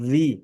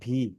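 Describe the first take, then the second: First: The v is made with teeth on lip. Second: The v is made with both lips together. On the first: The speaker calls it right. "উপরের দাঁতের আগা, নিচের ঠোঁটের ভিজা অংশ" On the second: The speaker calls it wrong. "এরকম ভি হবে না"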